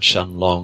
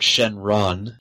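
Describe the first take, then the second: First: The name is said with an L sound. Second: The name is said with an R sound. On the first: "in the book it's written as Shenlong" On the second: "they definitely pronounce it with the R"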